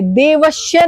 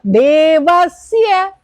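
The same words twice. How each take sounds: First: देवश्य said with a palatal श, the wrong way; mock the mistake देवश्य; wrong sh sound. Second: देवस्य with a clear dental स as in सड़क, slow. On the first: Teacher imitating students' wrong देवश्य. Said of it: "देवश्य नहीं है ये". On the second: Teacher correcting देवस्य to dental स. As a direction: say देवस्य with स, not श. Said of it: "सड़क वाला". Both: Shown as a demonstration.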